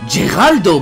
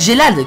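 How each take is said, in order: First: The name is said in a Japanese style. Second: The name is said in a French style. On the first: "Si je devais suivre l'intonation japonaise et à la fois l'écriture" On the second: "qui est version française"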